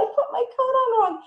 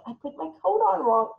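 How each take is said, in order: First: Much higher, louder mock dismay; hammed-up embarrassment. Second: Mock embarrassed. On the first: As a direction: overplay the embarrassment for the child. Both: Shown as a demonstration. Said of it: "You can model it".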